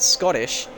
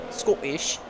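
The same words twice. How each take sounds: First: Said in the usual way. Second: Badly faked Scottish accent, pitched higher; attempted Scottish accent. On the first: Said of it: "I did it". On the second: Shown as a demonstration. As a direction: have a clumsy go at a Scottish accent. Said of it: "It doesn't sound like it's Scottish".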